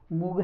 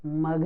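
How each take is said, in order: First: मुग with the u of put; wrong oo vowel. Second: मग with an uh sound, not oo; short uh vowel. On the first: Teacher asking if mug is said this way, oo vowel. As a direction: mispronounce mug as मुग, moog. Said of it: "मुग है क्या?". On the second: Teacher giving the correct sound of mug, uh vowel. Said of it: "मग है". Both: Shown as a demonstration.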